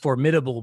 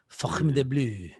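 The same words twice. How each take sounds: First: The R is said plainly, not rolled. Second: The R is rolled.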